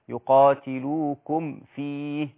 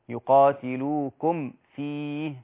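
No difference in how they are said.

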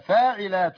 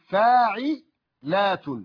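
First: The word is said smoothly with no internal pause. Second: A slight pause comes after the second syllable. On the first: It is the variant foot found among the derived forms. "العين مشبوكة في اللام أو متصلة بها، إذا نطقتها كذا" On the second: It is the basic foot found among the root forms. "أسكت سكتة خفيفة عند حرف العين"

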